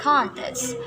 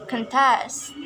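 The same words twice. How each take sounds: First: CONtest as a noun, full vowel in CON; stress on first syllable. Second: ConTEST as a verb, stress on TEST; stress on second syllable. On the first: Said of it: "in the noun". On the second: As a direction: hit the last syllable of contest. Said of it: "but in verb". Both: Shown as a demonstration.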